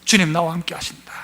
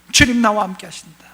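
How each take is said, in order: First: Soft, lower whisper of 주님 나와 함께 하신다; whispered confession. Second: Said in the usual way. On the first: Shown as a demonstration. Pastor whispering the believer's inner confession. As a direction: breathe it like a private prayer. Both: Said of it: "내 안에 증거가 있어요".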